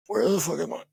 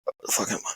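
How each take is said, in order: First: Said in the usual way. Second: Hushed, breathy whisper of confusion; whispered panic. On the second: Retold or imitated. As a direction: whisper it to yourself, lost and scared. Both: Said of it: "I'm not even screaming".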